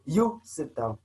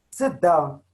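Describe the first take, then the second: First: You said first with weight, then sit down falling; stress on You. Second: Said in the usual way. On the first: Shown as a demonstration. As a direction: lean on You, the subject spelled out. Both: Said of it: "is the same as me saying to you".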